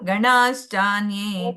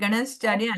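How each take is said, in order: First: The vowel before 'shchanye' is long. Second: The vowel before 'shchanye' is short. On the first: The speaker calls it right. "ಸ್ವಲ್ಪ ಇನ್ನ ಅಲ್ಲಿ ದೀರ್ಘ ಕೊಡ್ಬೇಕು" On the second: The speaker calls it wrong. "ಗಣಶ್ಚಾನ್ಯೇ ಅಲ್ಲ"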